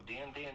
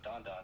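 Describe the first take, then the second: First: The vowel sounds like the one in cat. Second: The vowel sounds like the one in father. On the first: The speaker calls it wrong. "He always pronounces like like foreign words wrong" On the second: The speaker calls it right. "That's how you say it"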